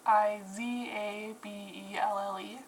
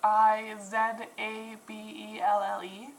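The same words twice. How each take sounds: First: The letter Z is pronounced "zee". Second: The letter Z is pronounced "zed". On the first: This is the non-Canadian way of saying it. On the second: This is the Canadian way of saying it.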